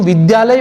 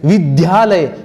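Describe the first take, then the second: First: The cluster is said with a plain 'dya'. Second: The cluster is said with an aspirated 'dhya'. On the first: The speaker calls it right. "ये जो विद्यालय वाला द्य है ना" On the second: The speaker calls it wrong. "कई विद्यार्थी ध्य बोलते हैं, विद्यालय गलत है"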